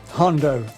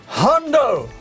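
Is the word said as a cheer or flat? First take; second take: flat; cheer. First: It is said flatly, without excitement. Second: It is shouted happily like a cheer.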